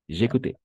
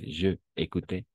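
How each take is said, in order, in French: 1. Le pronom est lié au verbe, comme un seul mot. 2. Le pronom se prononce comme une syllabe séparée et pleine. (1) "sino j'écoutais, porque es apóstrofe" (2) "No es je écoutais"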